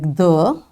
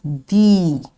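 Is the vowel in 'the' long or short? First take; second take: short; long. First: The vowel in the word is short. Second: The vowel in the word is long. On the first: This is the regular form used normally. "We pronounce the with a short sound like the" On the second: This form is used before a vowel sound. "We pronounce it with the long sound, that's the"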